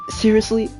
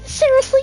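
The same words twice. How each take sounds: First: It is said in a plain, natural voice. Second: It is said in a put-on character voice.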